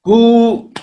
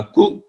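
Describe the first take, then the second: First: कु with a long, higher, louder uu. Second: कु cut short. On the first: Teacher shows pupils long uu, higher and louder. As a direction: stretch and lift the uu in कु. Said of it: "बड़ा ऊ लग जाएगा तो कु". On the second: Teacher shows pupils a short u in कु. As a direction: stop the u in कु quickly. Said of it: "स्वर जो होगा इसका जल्दी खत्म होगा". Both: Shown as a demonstration.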